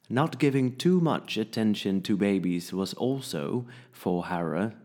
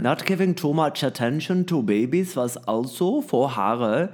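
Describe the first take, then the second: First: It is read with a polished English accent. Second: It is read with a German accent. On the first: "Dat heb je trouwens een prachtig Engels accent" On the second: "dat je zo snel schakelt naar Duits-Engels"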